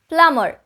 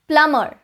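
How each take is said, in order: Both takes have the same delivery.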